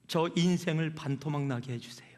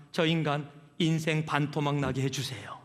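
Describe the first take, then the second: First: Hushed whisper of a bitter prayer; prayed in a whisper, half under the breath. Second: Said in the usual way. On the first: Retold or imitated. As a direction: breathe it out like a secret plea. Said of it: "어느 정도로 기도를 했어요?". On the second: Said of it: "하나님".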